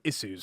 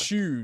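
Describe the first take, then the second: First: It is said in a formal, newsreader-like way. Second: It is said in an everyday, conversational way. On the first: The topic is real news. "if we're talking about like real life news, ... I'll say issues" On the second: It is ordinary conversation. "normally the way to say it is"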